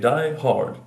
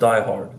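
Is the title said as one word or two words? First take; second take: two words; one word. First: The title is said as two separate words. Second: The title is said as one single word. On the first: The speaker calls it right. "I like to say it's two words" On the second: The speaker calls it wrong. "That's one word"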